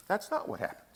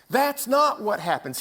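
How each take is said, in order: First: Dropped to a near whisper, much softer; soft hushed first take; hushed aside. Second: Said in the usual way. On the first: Acted. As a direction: let it fall away, barely voiced. Repeats line, first hushed.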